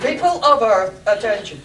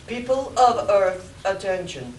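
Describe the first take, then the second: First: Loud, booming alien ruler; Martian overlord voice. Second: Martian overlord voice. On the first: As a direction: boom it out like an alien king. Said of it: "I think we've lost the dramatic thread". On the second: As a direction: proclaim like an alien king. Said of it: "the Martian's voice spoke". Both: Acted.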